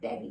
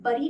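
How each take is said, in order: First: The vowel sounds like 'e' in 'bed'. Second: The vowel sounds like 'u' in 'cup'. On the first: The speaker calls it right. "ये होता है बेरी" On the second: The speaker calls it wrong. "ये बरी नहीं होता है"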